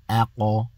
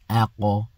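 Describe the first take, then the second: First: The final q is struck with a slight bounce. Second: The final q is struck with a slight bounce.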